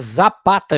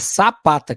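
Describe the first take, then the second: First: The name begins with a buzzing z sound. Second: The name begins with a hissing s sound. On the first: The speaker calls it wrong. "a gente fala, porque tá com Z" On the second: The speaker calls it right. "Mas a verdade é Sapata que se diz"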